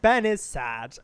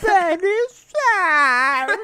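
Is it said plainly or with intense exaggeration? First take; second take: plain; intense. First: It is said in a plain, normal way. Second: It is said with strong, exaggerated intensity.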